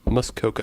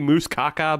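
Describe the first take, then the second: First: The first syllable sounds like 'muss'. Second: The first syllable sounds like 'moose'. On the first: The speaker calls it right. "I believe it is" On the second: The speaker calls it wrong. "I keep trying to not say moose caca"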